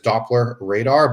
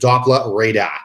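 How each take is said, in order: First: It is said without a regional accent. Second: It is said in a heavy Boston accent.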